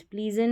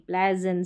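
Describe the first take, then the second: First: प्लीजेंट said with a long ee, the wrong way; wrong ee sound. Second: प्लेजेंट said with a short e as in bed; plé-zent, with the short e sound; correct short e. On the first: Teacher showing students the wrong ee version. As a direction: mark प्लीजेंट as the ee mistake. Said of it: "प्लीजेंट नहीं". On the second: Teacher giving students the right short e. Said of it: "प्लीजेंट नहीं, प्लेजेंट". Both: Shown as a demonstration.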